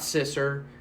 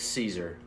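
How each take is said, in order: First: It is said with a short 'i' and 's'. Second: It is said with a long 'ee' vowel first. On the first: The speaker calls it wrong. "it's not Sisser" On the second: The speaker calls it right. "It's Caesar"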